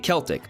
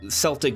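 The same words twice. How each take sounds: First: It uses a non-American regional pronunciation. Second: It uses the American regional pronunciation. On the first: "other places where they say Celtic" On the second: "here in the United States, for example, we say Celtic differently"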